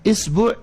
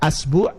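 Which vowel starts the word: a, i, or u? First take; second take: i; a. First: The word begins with the vowel i. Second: The word begins with the vowel a. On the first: "kalau hamzahnya dikasrohkan" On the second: "Karena hamzahnya fathah"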